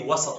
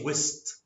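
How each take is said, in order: First: Standard form with an 'a' vowel, two syllables. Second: Egyptian form with an 'i' vowel, one syllable. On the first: "we don't say wasat" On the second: "in Egyptian Arabic, ... we say wist"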